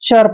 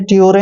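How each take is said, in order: First: The ending is said as a short cher sound. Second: The ending is said as separate t-yoo-re sounds. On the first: The speaker calls it right. "इसको चर पढ़ना है" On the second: The speaker calls it wrong. "ट्योरे नहीं पढ़ना है"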